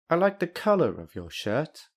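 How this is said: The voice falls and then rises at the end. The speaker dislikes something else about it. "this intonation suggests that the speaker doesn't like something else"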